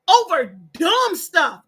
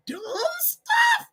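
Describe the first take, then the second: First: DUMB drawn out loud and slow; emphatic disgust. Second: Very high, stretched-out disbelief; incredulous squeal. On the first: Ranting at online squabblers, slow heavy stress on "dumb". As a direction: lean hard on "dumb", stretching it. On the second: Ranting at online squabblers, high squeaky disbelief. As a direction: squeal the words out in exasperation. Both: Real, not acted. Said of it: "That's how I gotta say it".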